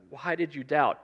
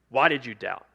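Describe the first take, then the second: First: It is said in a gentle, inviting tone. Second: It is said in an accusing tone.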